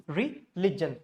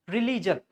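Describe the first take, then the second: First: Religion broken as ri... LIJ-un; slow "ri-LIJ-un" for religion; short I in religion. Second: Religion as ree-LEE-jun; religion with long "ee" vowels; wrong RELIGION. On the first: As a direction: keep "lig" together in religion. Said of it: "It's say". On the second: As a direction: lengthen the middle of religion to "lee". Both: Shown as a demonstration.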